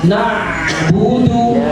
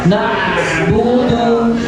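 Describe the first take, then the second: Both takes have the same delivery.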